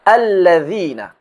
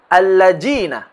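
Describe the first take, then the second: First: The middle consonant is a soft 'th' sound. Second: The middle consonant is a 'j' sound. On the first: The speaker calls it right. "Akan tetapi" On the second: The speaker calls it wrong.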